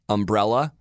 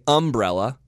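First: The stress falls on the second syllable. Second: The stress falls on the first syllable. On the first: This is how Californians say it. "the California version is" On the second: This is how Southerners say it. "Southerners say umbrella"

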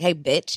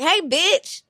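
First: The greeting sounds aggressive and hostile. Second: The greeting sounds casual and friendly. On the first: The speaker is ready to fight. "you would know that I was going to fight you" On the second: The speaker is not looking for a fight. "I'm not like proud to fight you"

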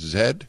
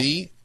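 First: The letter is said the Canadian way, 'zed'. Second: The letter is said the American way, 'zee'.

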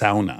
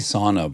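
First: Sauna is said with a Finnish-style pronunciation. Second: Sauna is said with the usual American pronunciation. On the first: "It's sauna" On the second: "we say sauna"

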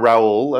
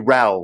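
First: The name is said with a Spanish pronunciation. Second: The name is said as one syllable, like 'Rahl'. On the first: This is how people in Spain say the name. "I lived in Spain for 10 years, so I'm Raul" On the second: This is how English people say the name. "English people tend to call me Raul, like R-A-L"

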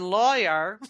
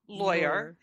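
First: The first syllable rhymes with flaw. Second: The first syllable rhymes with boy. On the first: "in a way that rhymes with flaw" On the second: "in a way that rhymes with boy"

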